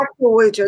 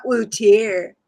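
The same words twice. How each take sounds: First: Said in the usual way. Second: Slow "wheelchair" broken up like the accented pun "we'll chair"; mock-Spanish pronunciation. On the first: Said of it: "not wheelchair". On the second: Shown as a demonstration. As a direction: say "wheelchair" slowly, as the mispronounced joke version. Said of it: "actual wheelchair, not wheelchair".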